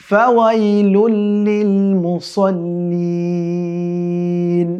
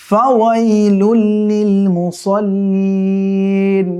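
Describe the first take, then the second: Both takes have the same delivery.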